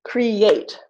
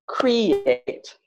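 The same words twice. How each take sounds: First: "create" with a long, strong final syllable; stress on second syllable. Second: "create" with the first syllable drawn out and strong; stress on first syllable. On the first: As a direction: say "create" as cre-ATE. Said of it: "Answer is create, not create". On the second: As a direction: misplace the stress in "create", CRE-ate. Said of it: "not create". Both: Shown as a demonstration.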